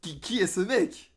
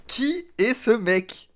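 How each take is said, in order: First: Said in the usual way. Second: Astonished repeat. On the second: Real, not acted. Streamer stunned by a Russian verse, asking who this guy is in disbelief. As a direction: ask it again as if you can't believe it.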